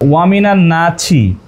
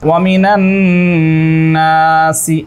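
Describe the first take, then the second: First: The last word has a ch sound. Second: The last word has an s sound. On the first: It follows the Bengali transliteration. The speaker calls it wrong. "আমি যদি এখানে পড়ি ওয়ামিনা নাছি" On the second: It follows the original Arabic text. The speaker calls it right. "আরবি কি আছে দেখুন তো, ওয়ামিনা নাসি এইভাবে আছে"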